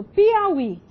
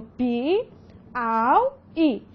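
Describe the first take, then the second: First: Said in the usual way. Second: "Pi, Au, I" sílaba por sílaba, com pausas; separação silábica. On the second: Shown as a demonstration. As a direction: separe "Pi, Au, I" em três blocos lentos. ("Pi, Au, I" pausado, escandindo cada sílaba) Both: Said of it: "Como é que eu separo?".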